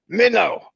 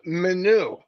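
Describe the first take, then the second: First: Minnow said like the fish, mih-noh; light imitation of "Minnow" as min-oh; Minnow, rhymes with window; Chris's way of saying it. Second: Minu said mih-noo; light imitation of "Minu" ending in an oo sound; Minu, second syllable noo; Chris's other way. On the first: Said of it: "that's exactly how he said it". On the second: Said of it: "One time he said".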